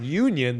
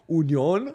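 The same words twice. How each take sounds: First: The name is pronounced the English way. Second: The name is pronounced the German way. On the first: The speaker calls it wrong. "They're not Union" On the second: The speaker calls it right. "that's the German pronunciation"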